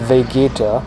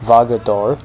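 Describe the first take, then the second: First: The name is said as Vegeta. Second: The name is said as Vagator.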